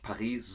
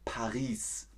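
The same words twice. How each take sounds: First: The final s is silent. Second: The final s is clearly pronounced. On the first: This is not how it is said in Germany. The speaker calls it wrong. "in Deutschland sagt man nicht Paris" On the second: This is how it is said in Germany. The speaker calls it right. "sondern Paris. Man betont das S im Hintergrund"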